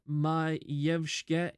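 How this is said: The name has its native Polish pronunciation. The speaker calls it right. "if you're pronouncing it correctly"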